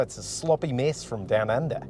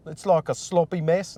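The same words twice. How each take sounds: First: Badly faked Australian sliding into New Zealand; New Zealand-leaning Australian accent. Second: Tentative mock Australian; failed Australian accent. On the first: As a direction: aim for Australian, land nearer New Zealand. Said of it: "that's a little bit more New Zealand". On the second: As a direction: have a shaky go at an Australian accent. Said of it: "No, that's not it".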